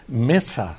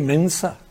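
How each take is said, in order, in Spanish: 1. La palabra no tiene sonido de n antes de la s. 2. La palabra tiene un sonido de n antes de la s. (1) "no se dice mesa" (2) "se dice mensa"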